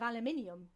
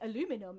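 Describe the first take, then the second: First: It is said the British way. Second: It is said the American way. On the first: The speaker calls it right. "because obviously we say aluminium" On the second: The speaker calls it wrong. "I used to say like a lot of American words"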